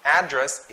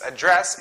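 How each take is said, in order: First: "Address" with stress on AD; noun stress. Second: "address" with stress on DRESS; light first syllable, strong DRESS in "address"; verb stress. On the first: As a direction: hit AD first in "Address". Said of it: "Address is a noun". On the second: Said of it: "address is a verb". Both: Shown as a demonstration.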